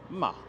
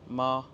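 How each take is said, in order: First: The pitch drops from high to low. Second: The pitch stays high and level. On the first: "celui qui est du haut vers le bas" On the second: "le premier ton, le plus aigu"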